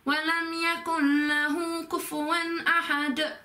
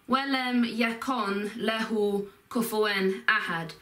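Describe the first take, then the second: First: The n blends into the following l. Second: The n is said separately before the l. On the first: "you link it to the next word" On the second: "the actual um, phrases of this are"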